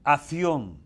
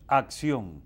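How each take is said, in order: First: It is said the way Spaniards say it. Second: It is said the local Dominican way.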